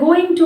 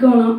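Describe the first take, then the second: First: Both words are said fully and separately. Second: The two words blend into one reduced word.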